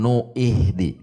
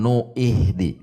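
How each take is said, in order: First: A glottal break and 'i' come before h. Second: The same.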